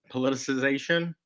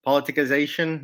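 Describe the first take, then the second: First: Said in the usual way. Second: Politicization slipping into a Texas accent. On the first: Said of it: "There's my Texas accent coming out". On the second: Real, not acted. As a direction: let Texas creep into "politicization", opening on a stronger first syllable. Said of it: "There's my Texas accent coming out on you".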